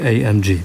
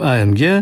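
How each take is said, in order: First: The letters are spoken with English letter names. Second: The letters are spoken with Polish letter names. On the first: This is how it is said abroad. "pojadą za granicę, będą sobie mówili AMG" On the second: This is how it is said in Poland. "w Polsce będziemy go wymawiać po polsku"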